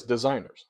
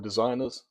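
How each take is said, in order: First: Said in the usual way. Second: "designers" with the final -ers softened to -uhs; mimicked pronunciation. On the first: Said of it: "it says designers right on the thing". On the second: Reactor quotes how he said the word, mimicked pronunciation. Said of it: "do you see how he said the word designers".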